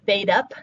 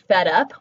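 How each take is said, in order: First: The first vowel is a long 'ay' sound. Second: The first vowel is a short 'eh' sound.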